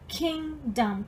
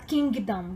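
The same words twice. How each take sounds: First: The G in the middle is left silent. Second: The G in the middle is clearly sounded. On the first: The speaker calls it right. "como se a letra G não existisse" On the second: The speaker calls it wrong. "você não fala kingdom"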